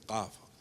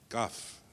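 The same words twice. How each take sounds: First: The first consonant comes from deep in the throat. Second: The first consonant is a plain front k. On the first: "We say kaf" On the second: "here they say ka, kaf"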